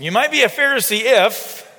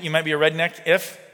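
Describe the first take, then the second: First: "You might be a Pharisee if" louder and higher, a comic setup; punchline setup, no accent. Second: Said in the usual way. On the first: Shown as a demonstration. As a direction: belt out "You might be a Pharisee if" like a comedian's catchphrase, without the country accent. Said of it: "I'm not gonna say it with his country accent". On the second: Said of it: "if you've ever watched, uh, or seen Jeff Foxworthy".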